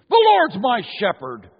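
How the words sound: It is said aggressively and loudly.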